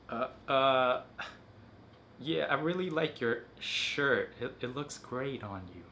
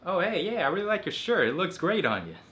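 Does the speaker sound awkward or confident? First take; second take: awkward; confident. First: It sounds hesitant, nervous and awkward. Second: It sounds relaxed, smooth and confident.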